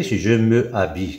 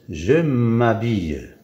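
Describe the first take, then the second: First: "me habille" with the e of "me" fully sounded; unelided pronunciation. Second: "m'habille" run together as one word, slowly; elided pronunciation. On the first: Teacher showing what happens without the apostrophe, unelided pronunciation. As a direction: keep "me" and "habille" apart, no elision. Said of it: "Mais quand on dit". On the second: Teacher showing students the apostrophe before a vowel, elided pronunciation. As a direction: stretch out "je m'habille", linking the m straight into the vowel. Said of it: "quand on dit l'accent". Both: Shown as a demonstration.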